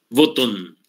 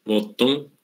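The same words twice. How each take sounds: First: Botón with a crisp final n; Spanish pronunciation. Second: Botón ending in a nasal ng, botong; Guaraní pronunciation. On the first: Teacher giving the Spanish original botón. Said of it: "y a todas les quitó la N". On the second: Teacher showing the Guaraní version of botón. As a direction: let botón close on ng, rising. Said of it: "Y entonces en guaraní". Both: Shown as a demonstration.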